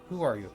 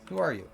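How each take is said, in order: First: It is said in an obnoxious, mocking voice. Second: It is said in a plain, normal voice.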